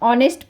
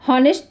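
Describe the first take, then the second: First: The word begins directly with the vowel sound. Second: The word begins with an audible h sound. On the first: The speaker calls it right. "ऑनेस्ट पढ़ते हैं" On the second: The speaker calls it wrong. "हॉनेस्ट तो नहीं पढ़ते हैं ना"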